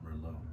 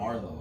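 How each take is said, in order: First: The first syllable has an 'er' vowel. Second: The first syllable has an 'ar' vowel. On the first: The speaker calls it right. "It's Merlot" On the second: The speaker calls it wrong. "with the A"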